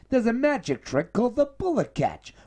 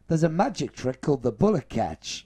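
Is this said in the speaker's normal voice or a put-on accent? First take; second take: put-on accent; normal voice. First: It is said in a put-on imitated accent. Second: It is said in the speaker's own normal accent.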